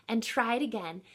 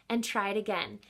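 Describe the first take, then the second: No difference in how they are said.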